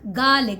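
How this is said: The middle R sound is left out. "we do not need to pronounce mid R"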